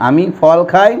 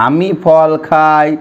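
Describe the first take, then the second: First: Said in the usual way. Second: Very slow, word by word, for writing down; slow dictation. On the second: Shown as a demonstration. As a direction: spell it out slowly so they can write. (ধীরে ধীরে লেখানোর মতো করে বলা) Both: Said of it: "বাক্যগুলো আমরা এখানে লিখে নিই".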